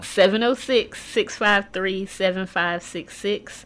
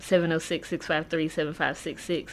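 First: The number is said more slowly. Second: The number is said at normal speed.

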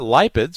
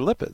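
First: The first syllable sounds like 'lie'. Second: The first syllable sounds like 'lip'. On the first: The speaker calls it wrong. "they're not lipids" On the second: The speaker calls it right. "They're lipids"

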